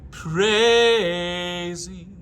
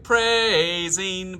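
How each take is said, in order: First: "Praising" sung high with an open vowel. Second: "praising" sung the wrong way, clipped. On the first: Sung, choir director showing singers the right "Praising". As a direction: sing "Praising" lifted and open. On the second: Choir director showing singers the wrong "praising". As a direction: show the flawed "praising". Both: Shown as a demonstration. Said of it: "Instead of praising".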